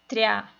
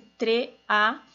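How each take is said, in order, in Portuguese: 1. As duas vogais se juntam em uma só sílaba. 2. As duas vogais se separam em sílabas diferentes. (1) "que vira treá" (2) "esse tre-a"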